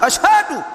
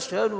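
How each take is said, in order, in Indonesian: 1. Kata ini diucapkan dengan jelas. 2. Kata ini diucapkan tidak jelas, seperti digumamkan. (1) "mengucapkan dengan lisan wadhihu, jelas" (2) "Jangan asyhadu, enggak jelas"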